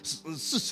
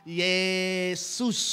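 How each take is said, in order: First: Only the last syllable of the name is heard. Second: Both syllables of the name are said clearly. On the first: The speaker calls it wrong. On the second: The speaker calls it right.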